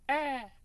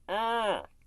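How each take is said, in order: First: The scream sounds clear and open. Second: The scream sounds muffled and covered.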